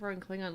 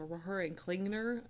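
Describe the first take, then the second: First: The surname is said without an extra n sound. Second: The surname is said with an extra n sound. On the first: The speaker calls it wrong. "instead of Roaring Klingon" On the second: The speaker calls it right. "the extra N"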